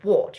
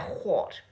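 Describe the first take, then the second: First: It starts with a plain w sound. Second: It starts with a breathy h sound. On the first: The speaker calls it wrong. "you don't say what" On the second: The speaker calls it right. "you say it with an H to begin it with"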